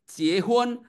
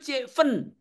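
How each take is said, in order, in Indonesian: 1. Suku kata kedua diawali bunyi h. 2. Suku kata kedua diawali bunyi f. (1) "di Cina daratan sana" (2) "kalau di Indonesia itu jiefen"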